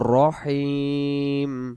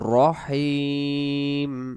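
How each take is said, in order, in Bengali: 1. র-এর পরের স্বরধ্বনিটি গোলাকার 'o'। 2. র-এর পরের স্বরধ্বনিটি গোলাকার 'o'।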